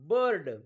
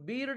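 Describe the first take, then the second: First: The vowel sounds like 'er' before the r. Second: The vowel sounds like 'ee' before the r. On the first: The speaker calls it right. "आयचा उच्चार अ होतो" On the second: The speaker calls it wrong. "आपण बीर्ड म्हणतो का? नाही"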